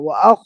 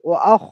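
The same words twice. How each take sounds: First: The kh sound is light, with lips unrounded. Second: The kh sound is heavy, with lips rounded. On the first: The speaker calls it wrong. "ও আখ হবে না" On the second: The speaker calls it right. "খ সবসময় পুর হবে ... মুখটাকে একটু গোল করতে হবে"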